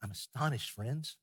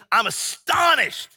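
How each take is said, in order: First: Much softer, gentle and polite; the polite version Paul never used; soft mild take. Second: High, loud and slow astonished cry; Paul rebuking the Galatians with outrage; outraged. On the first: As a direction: say it meekly, like a kindly host. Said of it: "he's not saying". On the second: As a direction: hurl it at them in disbelief. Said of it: "if we could hear Paul say this". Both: Shown as a demonstration.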